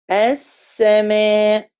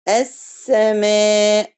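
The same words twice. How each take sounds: First: السماء very slow with a clear pause on the sukun; held sakin. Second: السماء said slowly but without the rest on the سين; السماء with the sukun not given its time; rushed sakin. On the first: Teacher correcting a student with a slow, held السماء. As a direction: give the silent سين in السماء its full beat. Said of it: "لأ". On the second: Teacher showing the wrong way to say السماء. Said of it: "ما ينفعش أقول السماء". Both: Shown as a demonstration.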